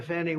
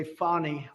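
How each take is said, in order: First: Said in the usual way. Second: "Fani" said as FAH-nee; her own pronunciation. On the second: Retold or imitated. Quoting how the prosecutor says her name, "Fani" as FAH-nee. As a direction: say "Fani" with a broad ah in the first syllable. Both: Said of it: "as she would say".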